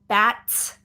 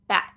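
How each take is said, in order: First: The final T is released with a puff of air. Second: The final T is cut off without release. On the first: This is an overpronounced, teacher-mode version. The speaker calls it wrong. "fully aspirating the t, right? Bat, too much" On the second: This is how it is said in normal casual speech. The speaker calls it right. "If I'm talking normally amongst my friends, I will just say bat"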